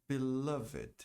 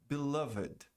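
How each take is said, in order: No difference in how they are said.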